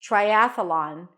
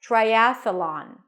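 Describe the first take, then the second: First: A short uh sound sits between th and l. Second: The same.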